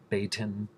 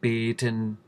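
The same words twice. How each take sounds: First: The first vowel glides into a second sound. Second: The first vowel stays steady without gliding. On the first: The speaker calls it wrong. "instead of beten" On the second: The speaker calls it right. "beten instead of"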